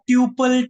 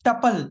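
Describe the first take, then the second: First: The first syllable sounds like tyoo. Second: The first syllable has a short uh vowel. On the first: The speaker calls it wrong. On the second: The speaker calls it right.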